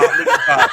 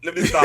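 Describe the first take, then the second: First: Breathless laughing whisper. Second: Laughing as you stop yourself. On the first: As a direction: whisper it while cracking up. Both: Real, not acted.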